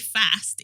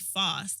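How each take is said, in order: First: It is said in a Birmingham accent. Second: It is said in a London accent. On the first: This is how the speaker normally says it. The speaker calls it wrong. "why'd you say fast?" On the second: This is how the son says it should be. The speaker calls it right. "It's actually fast"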